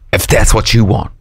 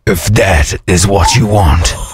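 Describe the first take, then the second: First: It is said in a normal voice. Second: It is said in a Darth Vader voice.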